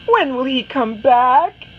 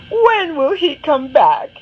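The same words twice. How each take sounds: First: Higher, louder question; Anna nags her mother again; impatient child. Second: Higher, louder whining question; Anna begs her mother once more; exasperated child. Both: Acted. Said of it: "she asks her mother".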